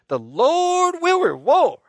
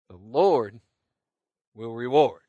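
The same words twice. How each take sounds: First: It is said with more force and conviction. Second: It is said in a calm, ordinary voice.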